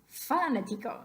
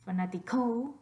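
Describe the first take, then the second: First: The stress is on the first syllable. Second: The stress is on the fourth syllable. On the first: "What about the first one?" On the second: "put your voice stress on the last syllable"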